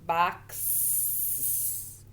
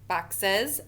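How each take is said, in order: First: The plural is said as one syllable. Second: The plural is said as two syllables. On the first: The speaker calls it wrong. "That doesn't sound right" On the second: The speaker calls it right. "all I had to do was add an E S"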